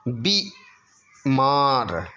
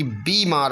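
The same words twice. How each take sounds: First: बीमार split slowly, brief bi then maar; short i. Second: बीमार joined up with held bee; long ee. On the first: Teacher showing the error, बीमार split after short bi. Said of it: "नहीं बल्कि". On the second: Teacher giving the correction, बीमार with long bee. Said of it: "बड़ी ई की मात्रा". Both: Shown as a demonstration.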